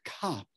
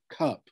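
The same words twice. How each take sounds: First: The vowel is very open, like an 'ah' sound. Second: The vowel is more central, like an 'uh' sound. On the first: This is how it was said fifty years ago. "a very open sound, with an ah sound" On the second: This is how it is said today. "with an uh sound"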